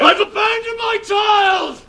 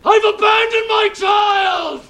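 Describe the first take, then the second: Both takes have the same delivery.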